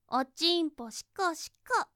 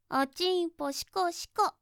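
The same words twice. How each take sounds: No difference in how they are said.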